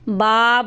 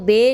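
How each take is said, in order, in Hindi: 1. स्वर खुली 'a' ध्वनि है। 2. स्वर 'e' की ध्वनि है। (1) "बा बोलना है" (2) "इसको बे नहीं बोलना"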